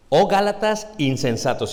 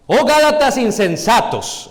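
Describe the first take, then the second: First: Said in the usual way. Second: Loud, high, drawn-out exclamation; exclamación. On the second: Shown as a demonstration. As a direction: cry it out as a forceful rebuke. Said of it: "Está exclamando". (exclamando con fuerza)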